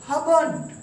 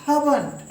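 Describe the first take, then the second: Both takes have the same delivery.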